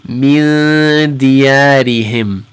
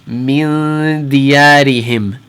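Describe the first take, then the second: Both takes have the same delivery.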